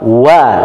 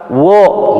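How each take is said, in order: First: The vowel is a light, open a sound. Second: The vowel is a rounded, heavy o sound. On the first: The speaker calls it right. "Ini huruf apa? Wa" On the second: The speaker calls it wrong. "nggak ada huruf wo ya"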